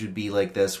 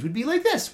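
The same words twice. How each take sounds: First: The pitch stays flat and narrow. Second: The pitch goes up and down widely. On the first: "a narrow vocal range would be like this, where you're speaking in a fairly flat tone" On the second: "wider vocal range would be like this, where you go up and down and up and down"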